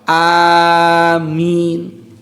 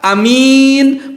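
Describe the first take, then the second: First: Both vowels are drawn out long. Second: Only the second vowel is long. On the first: Please answer our prayer. "A-nya harus panjang, minnya pun panjang" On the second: A trustworthy person. "A-nya pendek, minnya panjang"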